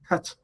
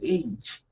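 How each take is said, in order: First: The letter name is said like 'hutch'. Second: The letter name is said the standard way. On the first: The speaker calls it wrong. "they did pronounce the H as hutch" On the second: The speaker calls it right. "It's such a difficult uh, pronunciation"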